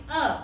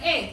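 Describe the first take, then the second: First: The vowel is a high unrounded eu sound. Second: The vowel sounds like a plain e. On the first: The speaker calls it right. "tapi e. Jadi kalau diromanisasi itu eu" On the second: The speaker calls it wrong. "bukan e"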